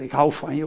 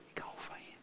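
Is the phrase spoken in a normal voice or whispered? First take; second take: normal; whispered. First: It is spoken in a normal voice. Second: It is spoken in a whisper. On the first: "Of je nou zo zegt" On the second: "Maar fluisteren"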